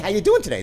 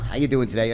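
First: It is said with warm, engaged enthusiasm. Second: It is said flatly, as a routine greeting. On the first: The speaker genuinely wants to know. The speaker calls it right. "this is the tonality, he really wants to know" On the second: The speaker does not care about the answer. The speaker calls it wrong. "not how you doing today"

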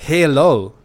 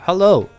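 First: The first vowel is a full, clear vowel. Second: The first vowel is a short, reduced vowel. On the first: The speaker calls it wrong. "No decimos hello" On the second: The speaker calls it right. "el sonido de la reversed E"

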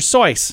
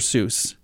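First: The name rhymes with voice. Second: The name does not rhyme with voice. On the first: This is how the family says the name. The speaker calls it right. "their family pronounces it Sois. ... Rhyming with voice" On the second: This is the common way people say the name. The speaker calls it wrong. "not Dr. Seuss"

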